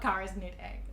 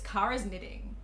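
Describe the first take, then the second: First: The last word sounds like 'knit egg'. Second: The last word sounds like 'knitting'. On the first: The speaker calls it wrong. "Not Kara's knit egg" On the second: The speaker calls it right. "It's Kara's knitting"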